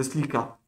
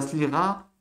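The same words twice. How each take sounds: First: "slika" with a plain hard K. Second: "slira" with a throaty, rasped R; guttural R in slira. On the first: Teacher shows what to avoid, hard K in "slika". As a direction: stop the sound with a K in "slika". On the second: Teacher shows the better pronunciation, throaty R in "slira". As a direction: scrape the R in "slira", no hard K. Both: Shown as a demonstration. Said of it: "Vous mieux dire slira que slika".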